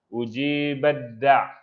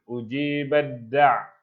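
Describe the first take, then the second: Both takes have the same delivery.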